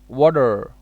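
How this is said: It is said in an American accent. "American said that water"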